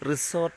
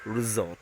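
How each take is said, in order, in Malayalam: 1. മധ്യത്തിലുള്ള വ്യഞ്ജനം ചീറുന്ന s ശബ്ദമാണ്. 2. മധ്യത്തിലുള്ള വ്യഞ്ജനം മൂളുന്ന z ശബ്ദമാണ്. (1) "Resort അല്ല" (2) "അത് z സൗണ്ട് ആക്കി കൊടുത്താൽ മതി"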